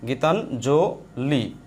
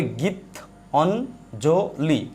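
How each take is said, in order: First: গীতাঞ্জলি said slowly as one joined word; slow teaching read of the joined word; whole word slowly. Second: গীত অঞ্জলি said slowly as two separate parts; slow teaching split of the word গীতাঞ্জলি. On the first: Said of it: "রস্বই আছে". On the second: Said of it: "এটা বাংলা way, মূল way". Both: Shown as a demonstration.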